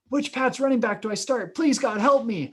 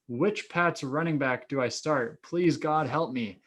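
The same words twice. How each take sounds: First: It is read with desperate, pleading feeling. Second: It is read flatly, without much feeling.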